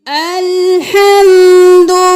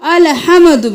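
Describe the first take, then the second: First: No extra vowel after l or m. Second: An extra vowel follows the m. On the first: The speaker calls it right. "लाम को साकिन रखना है" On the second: The speaker calls it wrong. "अलहम्दु भी नहीं करना, मीम को भी साकिन"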